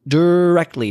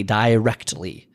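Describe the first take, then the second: First: DIRECTLY with a quick "duh" first syllable, punched; emphatic short first syllable. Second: "directly" slowly as "DIE-rect-ly", lower; long-i pronunciation. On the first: Stressing to listeners how self-esteem drives results, emphatic "duh-RECT-ly". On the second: Stressing to listeners how self-esteem drives results, slow "DIE-rect-ly". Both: Shown as a demonstration. Repeats one word, varying its pronunciation.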